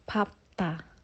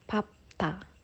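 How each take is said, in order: First: The middle consonants are p then t. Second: The middle consonants are p then t.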